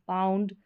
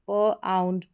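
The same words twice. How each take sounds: First: Said in the usual way. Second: प आउंड in two parts, "puh - aund"; sounding out. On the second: Shown as a demonstration. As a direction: hold प apart from आउंड. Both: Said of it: "इसका उच्चारण आउंड करके".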